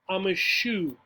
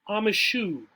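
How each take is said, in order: Both takes have the same delivery.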